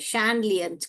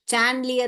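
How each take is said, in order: First: The word begins with a sh sound. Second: The word begins with a ch sound. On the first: The speaker calls it right. "सही pronunciation सैंड सैंडलियर है" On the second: The speaker calls it wrong. "चैंडलियर नहीं है"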